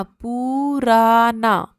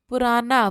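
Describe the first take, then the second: First: पुराना very slowly, every syllable stretched; drawn out. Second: Said in the usual way. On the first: Shown as a demonstration. Teacher breaking the word up for children to write, drawn out. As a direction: sound out पुराना with long held vowels.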